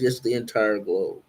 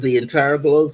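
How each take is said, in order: First: Calm confirmation. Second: Rising, a bit louder, amazed; astonished question. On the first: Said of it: "She says". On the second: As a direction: ask it in disbelief. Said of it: "I said". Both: Retold or imitated.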